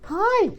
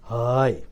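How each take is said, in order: First: The word is said at a high pitch. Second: The word is said at a low pitch. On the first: "that's called high pitch" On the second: "lower pitch"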